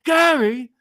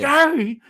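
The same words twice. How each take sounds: First: The name is called in an urgent, alarmed way. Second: The same.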